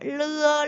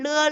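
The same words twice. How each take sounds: First: The syllable is said slowly. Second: The syllable is said quickly. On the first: "느리게" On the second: "좀 더 빨리 하면"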